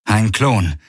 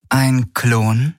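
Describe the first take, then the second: First: "Ein Klon" with a falling, settled tune; "Ein Klon" stated with the voice falling at the end; flat confirmation. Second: "Ein Klon?" with a rising, questioning tune; "Ein Klon?" asked with the voice going up at the end; asking in disbelief. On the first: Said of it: "sagte Garland". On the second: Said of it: "fragte Ylana". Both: Acted.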